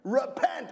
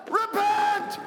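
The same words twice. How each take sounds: First: Said in the usual way. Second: Repent yelled much higher and louder. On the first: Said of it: "until you hear me yell what". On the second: Real, not acted. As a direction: shout repent as the stop signal. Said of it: "I'm gonna yell a word".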